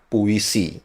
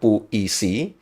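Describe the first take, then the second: First: The i sound is not stressed. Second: The i sound is pressed and stressed. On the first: The speaker calls it right. "yang benar adalah puisi. I-nya itu tidak ditekan" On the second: The speaker calls it wrong. "sebelum ini saya men menyebutkan puisi"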